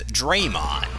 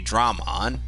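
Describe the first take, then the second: First: The first vowel sounds like 'ay'. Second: The first vowel sounds like 'ah'. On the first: "They would pronounce it as Draymon" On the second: "known as a Dramon"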